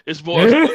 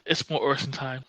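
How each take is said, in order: First: It is said in a perky, upbeat tone. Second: It is said in a flat, low-energy tone.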